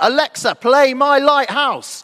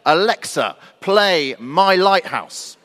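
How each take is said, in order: First: It is said somewhat louder than normal. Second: It is said at a normal, quiet volume.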